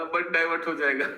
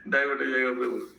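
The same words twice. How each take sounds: First: Said in the usual way. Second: A short laugh, then divert हो जाएगा said amused. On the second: Real, not acted. Teacher laughing as he warns the student off the topic. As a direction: chuckle through the warning to the student.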